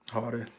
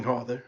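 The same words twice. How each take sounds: First: "harder." dropped lower and much softer as a trailing echo; a quiet lower repeat of "harder."; fading echo. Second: Said in the usual way. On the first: Acted. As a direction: let "harder." die away like an afterthought. Echoing word, fading for comic effect.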